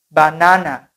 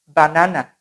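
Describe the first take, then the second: The two takes are said the same way.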